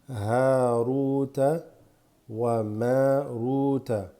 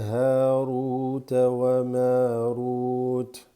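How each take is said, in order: First: The last word ends with a vowel. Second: The last word ends with a consonant.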